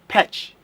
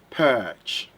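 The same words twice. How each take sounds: First: The vowel is a short 'eh' sound. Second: The vowel is a long 'er' sound. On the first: The speaker calls it wrong. "If you say perch, that is a short sound" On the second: The speaker calls it right. "it's a long sound, not a short sound"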